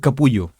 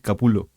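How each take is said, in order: First: The middle consonant sounds like a Spanish y. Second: The middle consonant is a plain l sound. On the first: It is read as the spelling suggests. The speaker calls it wrong. "No es Capullo" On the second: It is how the surname is really said. The speaker calls it right. "es Capulo"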